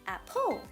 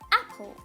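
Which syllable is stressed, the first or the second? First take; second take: second; first. First: The stress is on the second syllable. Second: The stress is on the first syllable. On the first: The speaker calls it wrong. "We don't pronounce it as apple. That's wrong" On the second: The speaker calls it right. "we stress at the first syllable"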